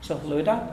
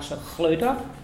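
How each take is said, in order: First: The 'ch' sound is very soft. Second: The 'ch' sound is harsh and strong. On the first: The speaker calls it right. "very soft" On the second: The speaker calls it wrong. "not Sachluta"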